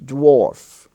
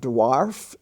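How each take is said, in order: First: The vowel is an or sound, as in for. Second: The vowel is an open ah, as in car. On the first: The speaker calls it right. "it's dwarf" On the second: The speaker calls it wrong. "It's not dwarf"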